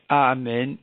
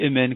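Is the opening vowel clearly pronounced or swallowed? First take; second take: clearly pronounced; swallowed. First: The opening vowel is pronounced clearly and fully. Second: The opening vowel is partly swallowed and weak. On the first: The speaker calls it right. "il ne prononce pas avec A" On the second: The speaker calls it wrong. "comme ça il avale un peu le Aleph"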